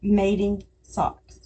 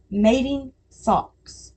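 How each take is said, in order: First: Slow repeat. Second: "Mating socks" said slowly, each word drawn out. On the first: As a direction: say "Mating socks" again, calm and slow. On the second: Mom tests the phrase on viewers, slow and deliberate. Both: Shown as a demonstration. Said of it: "say it like that".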